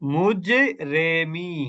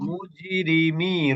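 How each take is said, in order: First: The vowel after r sounds like 'e'. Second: The vowel after r sounds like 'i'. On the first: The speaker calls it wrong. "যদি এখানে একারের উচ্চারণ হতো তাহলে কিভাবে হতো?" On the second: The speaker calls it right. "রি রি"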